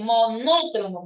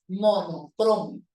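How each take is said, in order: First: "monócromo" as mo-NO-cromo; stress on NO. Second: "monocromo" stressed on next-to-last CRO. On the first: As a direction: throw the stress early, onto NO in "monócromo". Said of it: "Ya no se dice". ("monócromo" con acento en la sílaba NO) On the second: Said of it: "lo correcto es". ("monocromo" grave, marcando CRO) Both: Shown as a demonstration.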